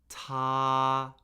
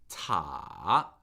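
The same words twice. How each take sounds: First: The pitch stays high and level. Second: The pitch dips low, then rises. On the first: "the first tone, high, flat, and unchanging" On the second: "it falls and then rises above where it begins"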